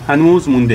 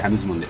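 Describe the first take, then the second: First: هنوز stressed and stretched, said louder; firm not yet. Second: هنوز مونده said softly and a little lower; softer repeat. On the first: Uncle telling the boy the kebab isn't done, firm stress. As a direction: lean on هنوز, stretching it out firmly. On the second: Uncle gently repeating to the boy it isn't done, softly. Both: Real, not acted.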